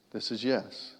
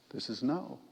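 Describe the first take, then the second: First: "yes" said plainly as an example; demo of yes. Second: "no" set against "yes", said a little softer; demo of no. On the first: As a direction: show how "yes" sounds. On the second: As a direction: contrast "no" with the yes take. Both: Shown as a demonstration.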